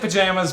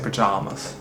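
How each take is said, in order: First: It is said in a plain everyday way. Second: It is said in a posh, pretentious way. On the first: This is the speaker's normal way of saying it. "I say pajamas" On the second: The speaker is being pretentious. "when I'm being pretentious"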